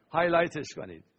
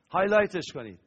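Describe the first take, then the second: First: Said through a laugh. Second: Said in the usual way. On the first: Real, not acted. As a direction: chuckle while telling them to highlight it. Laughing instruction then repeat.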